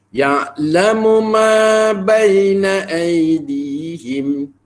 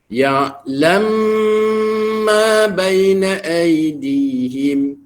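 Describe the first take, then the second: First: The two m sounds are pronounced separately. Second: The two m sounds merge into one. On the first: "yang ini izhar" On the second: "itulah bacaan idgham kabir"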